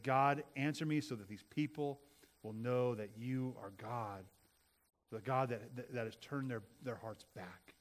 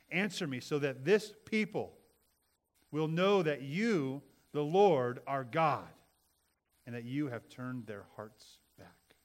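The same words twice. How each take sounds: First: Humble prayer. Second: Loud, slow, fervent prayer; fervent plea. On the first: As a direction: pray it with humility. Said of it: "with the attitude and posture of humility". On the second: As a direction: cry out slowly to God. Reads Elijah's prayer. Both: Acted.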